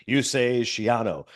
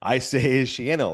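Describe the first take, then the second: First: "Schiano" said shee-AH-no; "Schiano" with a broad ah, slowly; two pronunciations. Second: "Schiano" said shee-AN-no; "Schiano" with a flat a as in cat, slowly; two pronunciations. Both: Retold or imitated. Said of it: "like tomato, tomato".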